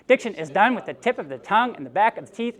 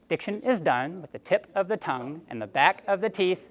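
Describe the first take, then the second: First: The phrase is said at the quickest pace. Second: The phrase is said at a moderate pace. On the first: "A little faster" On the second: "a little bit faster"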